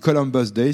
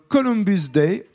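First: The name is said with an American accent. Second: The name is said with a French accent.

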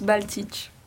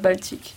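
First: The name ends in a ch sound. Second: The name ends in a k sound. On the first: This is the name's original pronunciation. The speaker calls it right. "Ça se prononce Baltich" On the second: This is how most people usually say the name. The speaker calls it wrong. "tout le monde m'appelle Baltique"

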